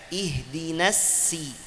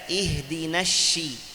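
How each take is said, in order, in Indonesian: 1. Bunyi s itu s polos yang tipis. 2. Bunyi s diganti dengan bunyi sh. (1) "Ada yang baca ihdinas si, sin" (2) "ganti huruf sad dengan shin"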